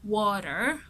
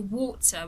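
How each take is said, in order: First: It is said in an American accent. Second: It is said in a British accent. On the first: "someone from the U S will say water" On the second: "someone from the U K ... would say water"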